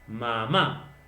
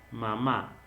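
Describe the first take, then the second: First: The stressed syllable is hit with exaggerated force. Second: The stressed syllable is said with normal force. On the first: The speaker calls it wrong. "Le da una exageración en la mayor fuerza de voz" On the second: The speaker calls it right. "Simplemente nosotros tendríamos que"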